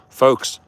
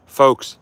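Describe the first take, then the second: No difference in how they are said.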